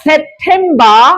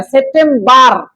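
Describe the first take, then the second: First: সেপ্টেম্বর drawn out as "sep-them-baa"; slow model of British সেপ্টেম্বর, R dropped; silent final R. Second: সেপ্টেম্বর as "sep-tem-bar", R heard; the counterexample সেপ্টেম্বর, ending in "bar"; final R sounded. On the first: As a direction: end সেপ্টেম্বর on an open "baa", no R. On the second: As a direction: pronounce the closing R in সেপ্টেম্বর. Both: Shown as a demonstration. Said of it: "শেষের আর উচ্চারণ হয় না".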